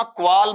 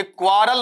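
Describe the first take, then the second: First: "क्वाल" as one syllable, no r sounded; corrected pronunciation. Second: "क्वारल" misread in two syllables, with an r before the l; wrong pronunciation. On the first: Teacher showing students how to read it, "क्वाल" in one syllable. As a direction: say "क्वाल" as kwaal, dropping the r. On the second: Teacher warning students off a misreading, mispronounced "क्वारल". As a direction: say "क्वारल" with the r sounded, kwaa-ral. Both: Shown as a demonstration. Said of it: "ये क्वारल मत पढ़ना".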